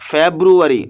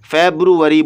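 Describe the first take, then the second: First: The word has an English pronunciation. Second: The word has an English pronunciation.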